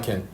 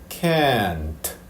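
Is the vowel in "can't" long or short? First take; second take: short; long. First: The vowel is short and clipped. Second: The vowel is drawn out long. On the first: The speaker calls it wrong. "이렇게 하면 이상합니다" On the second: The speaker calls it right. "이렇게 좀 길게 가고요. 끝에 t를 살짝 붙여주면 됩니다"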